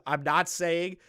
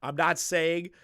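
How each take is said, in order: Both takes have the same delivery.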